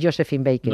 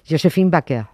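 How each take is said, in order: First: The name is pronounced in an English style. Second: The name is pronounced in a French style. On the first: This is not how the name is said in France. "Allí no es [name]" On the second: This is how the name is said in France. "en Francia la han hecho suya"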